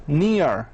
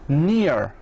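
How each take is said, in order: First: It is said with an American accent, R sounded. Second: The same.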